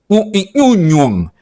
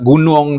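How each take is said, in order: First: The word begins with an ny sound. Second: The word begins with a hard g sound. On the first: Someone with a cleft lip says it. "tapi nyunyung" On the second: The word is said in its standard form. "ndak gunung do"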